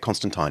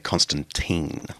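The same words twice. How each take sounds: First: The name has a British-Australian pronunciation. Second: The name has an American pronunciation. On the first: "I come from the Anglo-British Australian tradition" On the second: "I think Americans say Constantine"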